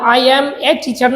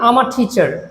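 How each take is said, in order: First: Each word is said fully and separately. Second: The words are reduced and run together. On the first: The speaker calls it wrong. "না" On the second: The speaker calls it right. "Collocation করে"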